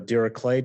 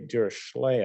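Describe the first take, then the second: First: The name is pronounced the German way. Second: The name is pronounced the anglicized way. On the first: The speaker calls it right. "that's the German pronunciation, which is the way you're supposed to pronounce this" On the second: The speaker calls it wrong. "most people say Dirichlet, I think. But um, according to Wikipedia, that's wrong"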